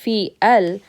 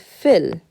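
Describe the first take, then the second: First: Fi and al are said as separate syllables. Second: Fi runs straight into the l sound. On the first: The speaker calls it wrong. "Instead of saying fi al" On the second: The speaker calls it right. "we're going to say fil"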